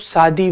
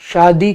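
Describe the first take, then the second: First: The word begins with an s sound. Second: The word begins with a sh sound. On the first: This is how eastern speakers say it. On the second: This is the standard pronunciation.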